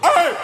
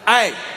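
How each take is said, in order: First: The voice cracks on the word. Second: The voice stays steady on the word.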